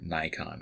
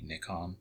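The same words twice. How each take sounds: First: Nikon is said with an English pronunciation. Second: Nikon is said with a Japanese pronunciation.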